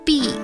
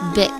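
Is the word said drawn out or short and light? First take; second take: drawn out; short. First: The word is drawn out and heavy. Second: The word is said short and light. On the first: The speaker calls it wrong. "不要发成big" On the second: The speaker calls it right. "要短短轻轻的发big"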